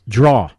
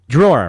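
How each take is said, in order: First: The word is said as one syllable, like 'draw'. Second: The word is said with two syllables, like 'drawer'. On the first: This is the local Philadelphia pronunciation. "In Philly, it's draw" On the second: This is the common pronunciation. "Drawer, right?"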